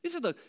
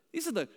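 The two takes are said the same way.

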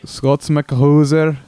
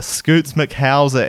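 First: Put-on Scots McHauser with a short o, in Scottish accent; slow Scottish correction of the name Scots; corrected name. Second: Scoots McHauser with a long oo in Scoots; slow host mangling the guest's name as Scoots; mispronounced name. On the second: Shown as a demonstration. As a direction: say Scoots, stretching the oo.

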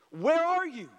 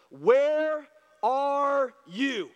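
First: Said in the usual way. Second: Slow, drawn-out, louder call; God calling to the hiding man, slow and loud. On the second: Acted. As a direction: stretch it out like a voice searching the garden.

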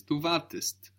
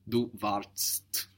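First: "Du wartest" with an E sounded before ST; EST ending. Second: "Du wartest" slowly, no E before the crowded final TST; ST without E. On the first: Teacher showing the helping E, EST ending. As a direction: say "wartest" in two syllables, war-test. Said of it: "you are adding E S T". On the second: Teacher showing it's too complicated, ST without E. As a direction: cram "wartest" into one syllable, ending in TST. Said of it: "we can't add the S T". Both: Shown as a demonstration.

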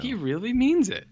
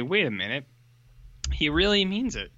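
First: Amazed. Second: Dawning surprise. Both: Retold or imitated. Kids realise he means it.

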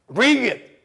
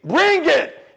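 First: Raised, louder dare; battle challenge. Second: High, loud, escalated dare; shouted battle challenge. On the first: Fighter daring his problems to come, first battle challenge. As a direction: call the fight on. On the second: Fighter daring his problems at full pitch, shouted challenge. Second challenge, higher and louder. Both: Acted.

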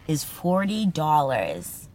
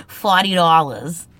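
First: Said in the usual way. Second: Forty dollars with a dropped r, Boston style; Forty dollars in a Boston accent. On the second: Shown as a demonstration.

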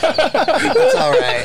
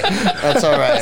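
First: High, very slow, lingering; drawn out high and soothing; commercial actor. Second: Slow repeat. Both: Retold or imitated. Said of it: "they're about to kiss and they go".

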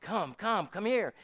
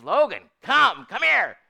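First: Mildly raised beckoning call; higher-pitched imitation of a summons, not shouted; calling someone over. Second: Raised, high call across a pasture; calling a horse. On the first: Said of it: "God calls us". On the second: Retold or imitated. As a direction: imitate an owner hollering for a horse. Vicky calls horse in pasture.

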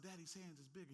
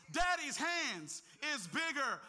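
First: Preacher quietly voicing what the listener should tell themselves; quiet reassurance. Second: Loud, high, slow preacher's cry; preacher shouting the refrain to the church; preached refrain. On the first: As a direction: tell yourself gently. Quiet self-talk after preaching. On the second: Acted. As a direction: hammer the refrain home slowly.

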